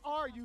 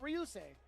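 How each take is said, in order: First: The R is said as a separate letter. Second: The R is blended into the first syllable. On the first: The speaker calls it wrong. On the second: The speaker calls it right. "but Ryusei"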